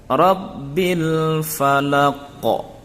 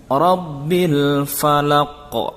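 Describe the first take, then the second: Both takes have the same delivery.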